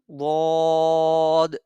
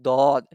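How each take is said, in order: First: The consonant sounds between a Z and D. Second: The consonant sounds like a plain D. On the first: The speaker calls it right. "which is something between Z and D sound" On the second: The speaker calls it wrong. "which is not dod"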